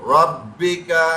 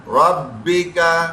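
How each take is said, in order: No difference in how they are said.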